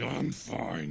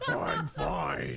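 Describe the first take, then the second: First: A hint of a Russian guard; weak Russian accent. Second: Put-on a faint, half-hearted Russian accent on "I'm fine"; a hint of a Russian guard; weak Russian accent. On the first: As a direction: give it a bare try at Russian. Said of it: "it's gonna be bad if I try to do it". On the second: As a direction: barely try the Russian accent. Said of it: "That was not very Russian sounding".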